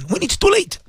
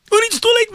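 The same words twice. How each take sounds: First: Said in the usual way. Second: Much higher, cried out "too late" as a climax; escalated warning. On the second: Acted. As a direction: cry it out as the peak of the warning. Preacher repeats warning, escalating.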